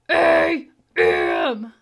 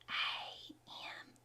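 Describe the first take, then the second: First: The letters are said in a growly monster voice. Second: The letters are whispered softly. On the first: "Do it in your monster voice" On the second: "let's use our whisper voice"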